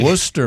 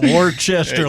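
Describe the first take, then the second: First: It is pronounced the local New England way. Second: It is pronounced the way outsiders often say it. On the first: The speaker calls it right. "I was able to pronounce that properly" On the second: The speaker calls it wrong. "not Worcester like some people do"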